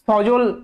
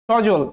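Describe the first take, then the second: First: It begins with a hissing s sound. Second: It begins with a hushing sh sound. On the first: This matches how the name is spelled. The speaker calls it right. "যদি দন্তের স এর মতো উচ্চারণ করতাম তাহলে উচ্চারণটা কেমন হতো জানেন" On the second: This is how people usually say the name. The speaker calls it wrong. "তালব্য স এর মতো উচ্চারণ করি এটা আমাদের বাঙালিদের দোষ"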